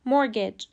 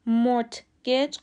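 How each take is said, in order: First: The t sound is not pronounced. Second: The t sound is pronounced. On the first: The speaker calls it right. "تلفظ درست mortgage" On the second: The speaker calls it wrong. "mortgage غلطه چون تی سایلنته و تلفظ نمیشه"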